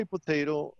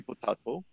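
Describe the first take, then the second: First: "potato" with a long AY in the middle; American potato. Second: "potato" with a broad AH in the middle; British-style potato. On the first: Teacher quoting a saying, American-style "potato". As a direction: say "potato" as poh-TAY-toh. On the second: Teacher countering in the saying, British-style "potato". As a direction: say "potato" as poh-TAH-toh. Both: Shown as a demonstration. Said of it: "you remember this saying that we say".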